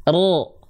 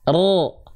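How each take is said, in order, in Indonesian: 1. Vokalnya adalah bunyi O yang berat dan membulat. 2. Vokalnya adalah bunyi O yang berat dan membulat.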